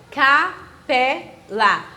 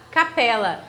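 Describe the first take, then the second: First: "capela" very slowly as ca-PE-la, three separate beats; syllable by syllable. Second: Said in the usual way. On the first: Shown as a demonstration. Teacher showing where the stress falls, "capela" drawn out syllable by syllable. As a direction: split "capela" into ca, pe, la, leaning on "pe". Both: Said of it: "eu pronuncio com mais entonação".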